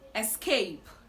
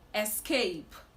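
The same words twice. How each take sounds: First: The word begins with an 'es' sound. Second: The same.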